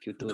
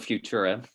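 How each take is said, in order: First: It is said with a Spanish accent. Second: It is said with an English accent.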